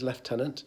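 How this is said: It is said with a British pronunciation. "the British version is lieutenant"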